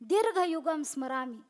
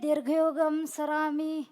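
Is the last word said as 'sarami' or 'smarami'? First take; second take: smarami; sarami. First: The last word is said with the m sound. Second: The last word is said without the m sound. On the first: This is the actual word. The speaker calls it right. "असा शब्द आहे तो" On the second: This is how people commonly say it. The speaker calls it wrong. "ते म्हणतात"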